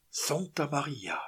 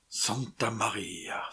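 First: Slow startled cry; José crying out at the falling rock, slow startled exclamation. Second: Slow, breathless whisper; whispered exclamation. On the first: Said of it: "s'écria le gabier". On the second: José staring at the rock's path, slow awed whisper. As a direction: hush it out in awe. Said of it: "s'écria José". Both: Acted.

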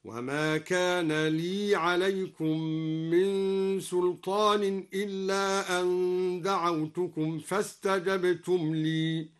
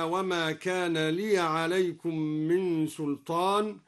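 First: لي recited slowly with a silent ya, li joined onto عليكم; slow tajweed chant keeping the ya of لي unvowelled; Quranic recitation. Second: Said in the usual way. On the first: Shown as a demonstration. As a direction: chant لي with sukun on the ya. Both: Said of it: "سكن الياء وصلا".

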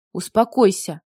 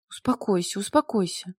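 First: Firm, no-nonsense order; commanding tone. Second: Softly, shakily trying to comfort; trembling voice. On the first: Mila ordering weeping Nikolai, commanding tone. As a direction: order him to pull himself together. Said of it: "приказным тоном велела она". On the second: Mila comforting weeping Nikolai, trembling voice. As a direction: soothe him with a trembling voice. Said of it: "дрожащим голосом попыталась утешить Николая Мила". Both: A narrator's reading.

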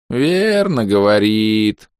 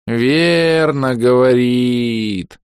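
First: Блеющий дед. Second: Высокий медленный блеющий старик; проблей, растягивая слова; блеющий дед. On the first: Призрачный дед повторяет. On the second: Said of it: "проблеял призрачный дедушка". (блеющий старый призрак, очень медленно) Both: A narrator's reading.

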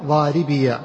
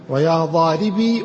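First: "ضاربي" ending in -biya; voweled final ya. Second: "ضاربي" with a slow, long final ee; silent final ya. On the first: Teacher giving second example, "ضاربي" said daribiya. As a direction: finish "ضاربي" with a short a after ya. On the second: Teacher giving second example, "ضاربي" ending in long ee. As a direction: stretch the ending of "ضاربي" as -bee. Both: Shown as a demonstration. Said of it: "الياء مفتوحة والياء مسكنة".

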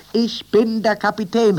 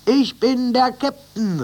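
First: High, loud, stress on bin; called out. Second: High, loud and slow, stress on Ich; called out. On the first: Captain calling to the new crew, high loud call. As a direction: announce it proudly over the shoulder. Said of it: "rief er über seine Schulter". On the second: Captain announcing himself to each animal, high slow call. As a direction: proclaim it with each stab. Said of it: "rief er jedes Mal". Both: A narrator's reading.

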